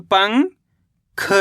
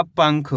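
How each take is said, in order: First: "पंग" rising, pause, then "ख"; split syllables. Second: Said in the usual way. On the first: Shown as a demonstration. Teacher spelling out the word by syllables, split syllables. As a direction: keep पंग and ख as separate syllables. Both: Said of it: "तो मिलके बन जाएगा".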